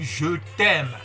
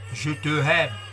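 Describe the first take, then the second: First: The words are joined, with the vowel dropped. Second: The words are said separately, keeping both vowels. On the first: The speaker calls it right. "mais je dis je t'aime. Vous voyez, c'est beau la liaison" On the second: The speaker calls it wrong. "Mais sans liaison, c'est vilain"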